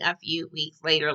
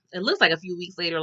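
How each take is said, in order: First: A light nod to the SpongeBob title-card narrator, lower and softer; half-hearted cartoon narrator. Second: Said in the usual way. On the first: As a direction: announce the time skip like a cartoon card. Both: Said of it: "remind me of that SpongeBob little thing".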